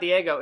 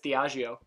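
First: The name is said like the name Diego. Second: The name is said with extra vowels, dee-AH-jee-oh. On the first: The speaker calls it wrong. "it's not Diego" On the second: The speaker calls it right. "it's Diageo"

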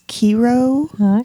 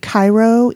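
First: It is pronounced the local town's way. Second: It is pronounced like the Egyptian city's name. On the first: This is how the town in the area says it. "Cairo is Kiro" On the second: This is the name of the city in Egypt. "they're pronounced different"

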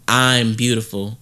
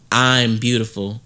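First: It is said firmly, with conviction. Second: The same.

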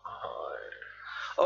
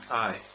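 First: It is said in a creepy voice. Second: It is said in a normal voice.

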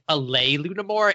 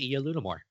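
First: An extra L sound comes before lunamore. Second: A single L sound begins lunamore. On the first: The speaker calls it wrong. "he ends it with like a lay lunamore. And it's like, no. There's only one L" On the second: The speaker calls it right. "It's pronounced literally how it looks"

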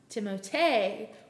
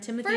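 First: The name ends with an extra vowel sound. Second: The name ends the usual way, without an extra vowel. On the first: The speaker calls it right. "pronounced Timotei with the extra E on the end" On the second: The speaker calls it wrong. "we have all been pronouncing his name wrong"

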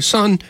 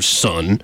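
First: The word is said in a warm, loving tone. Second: The word is said in a stern, threatening tone. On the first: Kind advice is coming. "he said it in a loving kind of, again, very not creepy uncle way" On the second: A bad conversation is coming. "Said that way, it's not going to be a good conversation"

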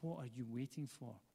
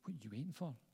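First: It sounds like a sincere, curious question. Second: It sounds like an impatient, urging challenge.

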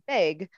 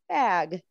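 First: The vowel sounds like the e in beg. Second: The vowel is the open a of bat. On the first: This is how people in the new region say it. "They pronounce it big, like more like what a dog does, B-E-G" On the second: This is how the speaker's home region says it. "Where I'm from, it's pronounced ag. The same A is in the word bat"

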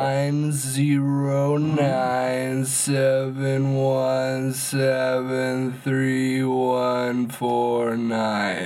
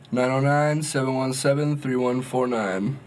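First: It is said slowly, semi-robotic. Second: It is said at normal speed.

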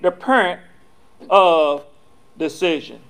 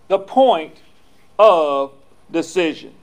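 First: It is said in a southern country accent. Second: It is said in a plain, neutral accent.

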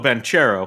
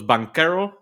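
First: The middle consonant is a 'ch' sound. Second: The middle consonant is a 'k' sound. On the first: It sounds cooler. The speaker calls it wrong. "I want to call him Paolo Banchero, because that's cooler" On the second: It follows the Italian pronunciation. The speaker calls it right. "in Italian, you don't say ch, you do the k sound"

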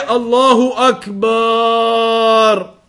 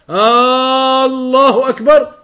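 First: The vowel after the b is drawn out long. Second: The opening vowel is drawn out long. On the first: The meaning of the phrase is changed. "Don't extend the ba" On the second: It turns the phrase into a question. "To elongate it like that"

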